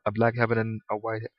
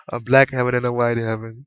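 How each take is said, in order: First: Said in the usual way. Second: Laughing. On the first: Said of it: "I should say hell". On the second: Real, not acted. Repeating his own slip to listeners, laughing.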